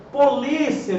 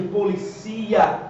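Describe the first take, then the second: First: Polícia slowly, leaning on LI; polícia as po-LI-cia; stress on LI. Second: Policia slowly, leaning on CI; stress on CI. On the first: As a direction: stretch the LI in polícia, short final glide. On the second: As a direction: stretch the CI in policia, po-li-CI-a. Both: Shown as a demonstration. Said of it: "É justamente a acentuação gráfica".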